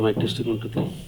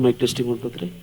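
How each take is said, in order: First: The voice is recorded at a low level. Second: The voice is recorded at a higher level. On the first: The speaker calls it wrong. "Audio capturing ವ್ಯಾಲ್ಯೂಮು ಕಡಿಮೆ ಇದೆ" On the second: The speaker calls it right. "ಈಗ ಇದ್ರ ಗೇನನ್ನು ಜಾಸ್ತಿ ಮಾಡಿದೆ"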